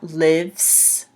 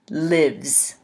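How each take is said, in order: First: The word ends with a hissing S sound. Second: The word ends with a buzzing Z sound. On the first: The speaker calls it wrong. "It's not lives" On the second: The speaker calls it right. "It's a Z sound"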